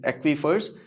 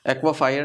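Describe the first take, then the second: First: The word ends with a short 'fers' sound. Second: The word ends with a 'fire' sound. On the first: The speaker calls it right. "That is" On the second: The speaker calls it wrong. "नहीं"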